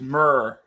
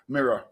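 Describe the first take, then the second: First: The word is squeezed into one syllable, 'myrrh'. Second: The word is said with two syllables, 'mir-ror'. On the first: This is how a friend from Northern Ireland says it. "I've got a friend from Northern Ireland who goes myrrh" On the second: This is how the speaker says it. "not myrrh, mirror"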